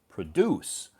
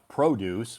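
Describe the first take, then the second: First: The stress is on the second syllable. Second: The stress is on the first syllable. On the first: It means to make something. "which you do something to make the fruits and vegetables" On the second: It names fruits and vegetables. "which is fruits and vegetables"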